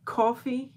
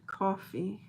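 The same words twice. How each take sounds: First: A hint of a New York accent on "Coffee?", louder and higher; mock New Yorker saying "Coffee?" with a lifted end; New York accent "Coffee?", lightly imitated. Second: Said in the usual way. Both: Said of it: "In a funny way".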